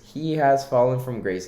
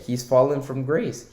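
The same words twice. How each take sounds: First: "has" spelled out in full and leaned on, not "he's"; emphatic restated "He has fallen from grace"; stress on has. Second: Said in the usual way. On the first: Shown as a demonstration. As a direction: hit the word "has" hard.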